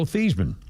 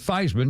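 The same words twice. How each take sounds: First: The name is said not rhyming with Heisman. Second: The name is said to rhyme with Heisman. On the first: This is the original pronunciation. "apparently his original name" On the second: This is the changed pronunciation. "Theismann to rhyme with Heisman"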